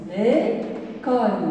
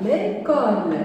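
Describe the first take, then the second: First: Slow syllable reading. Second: Said in the usual way. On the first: Shown as a demonstration. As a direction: say "L'école" very slowly, syllable by syllable. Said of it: "une seule syllabe". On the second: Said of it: "on a ici une seule syllabe".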